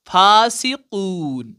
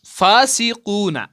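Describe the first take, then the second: First: फासिकून with the कू held very long and the final ना dropped; long stretched madd. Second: फासिकूना said slowly with the final ना sounded; full ending read out. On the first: Teacher shows the pause reading, stretching the vowel long. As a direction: drag out the कू in फासिकून, stop on न. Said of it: "तो आप क्या पढ़ते हैं?". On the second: Teacher shows the word as written, slow and careful. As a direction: spell out फासिकूना slowly, keeping the ना at the end. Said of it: "फासिकूना नहीं पढ़ते हैं". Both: Shown as a demonstration.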